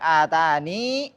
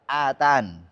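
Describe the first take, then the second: First: The word ends with a long final vowel. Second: The word ends on a consonant, vowel dropped. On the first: "Boleh panjang atani" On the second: "Kalau berhenti bisa hilang"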